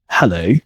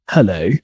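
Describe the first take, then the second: Both takes have the same delivery.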